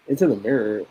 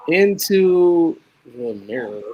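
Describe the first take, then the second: First: Said in the usual way. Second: Drawn-out, eerie reading of "Into the Mirror"; slow spooky title. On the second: Acted. Host teasing a horror movie title, slow and eerie. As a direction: stretch "Into the Mirror" out like a horror trailer.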